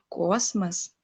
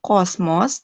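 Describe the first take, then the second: First: The second vowel sounds like an 'e'. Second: The second vowel is a full 'o' sound. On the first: The speaker calls it right. "O yang di belakang dibacanya jadi E" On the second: The speaker calls it wrong. "tidak Kosmos"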